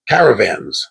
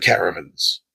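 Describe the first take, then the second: First: "Caravans" with a full "van" in the last syllable; self-corrected pronunciation. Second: Said in the usual way. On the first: Real, not acted. Host corrects his word for land caravans, "Caravans" with a full "van". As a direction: say "Caravans" lower, ending in a clear "vanz". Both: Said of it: "I keep saying caravans".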